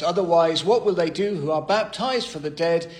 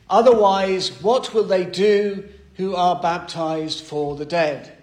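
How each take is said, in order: First: Said in the usual way. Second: Emphatic reading. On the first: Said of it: "And just read that whole verse". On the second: Shown as a demonstration. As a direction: proclaim the verse with a loud, ringing "Otherwise". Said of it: "the first thing that the apostle says".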